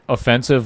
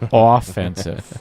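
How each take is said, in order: First: The stress is on the second syllable. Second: The stress is on the first syllable. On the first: Rude or insulting. "not offensive like our commentary" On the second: Attacking, playing to win. "you got to hit the O's a little bit differently"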